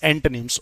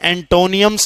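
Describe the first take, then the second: First: The ending sounds like a short 'nims' without extra vowel. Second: The ending sounds like 'nee-ums' with an extra vowel. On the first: The speaker calls it right. "It's एंटोनिम्स" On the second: The speaker calls it wrong. "यहां भी एंटोनियम्स नहीं है"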